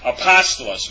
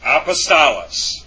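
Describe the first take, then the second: First: The stress is on the second syllable. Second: The stress is not on the second syllable. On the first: The speaker calls it right. "It's over the first omicron" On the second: The speaker calls it wrong. "Or I should say apostolos. I'm sorry"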